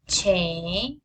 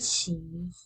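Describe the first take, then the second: First: The vowel is a short Spanish-like 'e'. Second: The vowel is a long 'ee' sound. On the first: The speaker calls it wrong. "Why the pronunciation is not me, che, e, and we" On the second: The speaker calls it right. "the correct pronunciation is me, she, he, and we"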